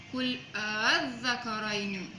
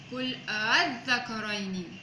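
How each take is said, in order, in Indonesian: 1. Hamzah kedua dilunakkan dan ditahan sebentar. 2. Hamzah kedua dilunakkan dan ditahan sebentar.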